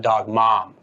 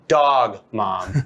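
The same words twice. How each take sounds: First: The stress falls on the word mom. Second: The stress falls on the word dog. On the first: The parent role matters most. The speaker calls it wrong. "a lot of people nowadays have put the emphasis on the dad and the mom" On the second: It is still a dog, not a child. The speaker calls it right. "In the end, it's still a dog"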